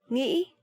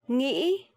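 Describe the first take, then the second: The two takes are said the same way.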